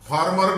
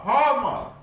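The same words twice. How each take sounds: First: The r after the first vowel is pronounced. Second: The r is silent and the vowel is long. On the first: The speaker calls it wrong. "Farmer नहीं" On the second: The speaker calls it right. "आर is silent and vowel ए will be long"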